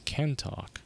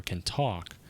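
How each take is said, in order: First: "can talk" drawn out slowly, leaning on "can"; slow "can talk" with "can" most prominent; stress on CAN. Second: "can talk" with the weight on "talk"; "talk" as the prominent word in "can talk"; stress on TALK. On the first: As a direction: lean on "can" and stretch the phrase. Tries two readings of the phrase. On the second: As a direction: land on "talk", passing lightly over "can". Second reading after "or. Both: Shown as a demonstration.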